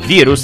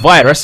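First: The word has a Serbian pronunciation. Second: The word has an English pronunciation.

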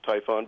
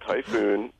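First: The name ends with a short 'on' sound. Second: The name ends with a long 'oon' sound. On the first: The speaker calls it right. "I'm only assuming that it's pronounced Typhon" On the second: The speaker calls it wrong. "It's been called Typhoon"

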